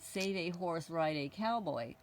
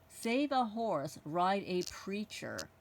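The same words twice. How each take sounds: First: Said in the usual way. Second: "preacher" set apart, each word drawn out slowly; slow, deliberate reading of "Save a horse, ride a preacher". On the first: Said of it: "instead of writing on it". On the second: Shown as a demonstration. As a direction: read the altered slogan slowly to show the changed word. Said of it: "they wrote".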